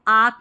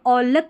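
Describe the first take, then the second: First: The vowel is 'ah' and the L is silent. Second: The vowel is 'aw' and the L is sounded. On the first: "इसको आक नहीं पढ़ना है" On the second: "या औलक भी नहीं पढ़ना है"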